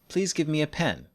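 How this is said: The voice falls at the end of the request. It is an ordinary request. "Requests and commands use falling intonation too"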